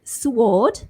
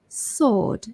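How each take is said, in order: First: The W sound is pronounced after the S. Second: The W sound is left out after the S. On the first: The speaker calls it wrong. "so it's not sword" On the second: The speaker calls it right. "silent W"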